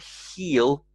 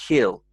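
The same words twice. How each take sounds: First: The vowel is a long 'ee' sound. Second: The vowel is a short 'i' sound. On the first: "So not he'll, E" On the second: "but he'll, ill, but said quite quickly"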